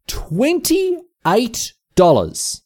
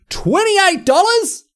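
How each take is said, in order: First: Very slow, high, stretched out; repeating the price, stunned and slow; drawn-out dismay. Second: High, slow, stunned question; can't believe what it costs now; shocked disbelief. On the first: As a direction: let the price sink in slowly. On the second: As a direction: gasp out the price in disbelief. Shocked at the burger price. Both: Real, not acted.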